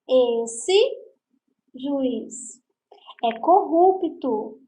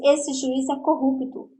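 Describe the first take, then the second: First: There is a pause after 'juiz', addressing him. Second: It flows without a pause after 'juiz'.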